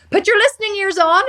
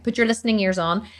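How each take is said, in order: First: High, loud scolding command; Judge Judy. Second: Said in the usual way. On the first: Retold or imitated. Quoting the TV judge her dad watches, loud scolding imitation. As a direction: order them to listen, pitched up and forceful. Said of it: "Judge Judy". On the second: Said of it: "is what she always says".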